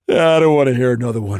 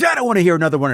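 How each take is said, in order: First: It is yawned sleepily in one breath. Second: It is said in a tough, adversarial way. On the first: The character does not see the other as a threat. The speaker calls it right. "he literally yawns the line in one breath" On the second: The character sees the other as a threat. The speaker calls it wrong. "instead of being like"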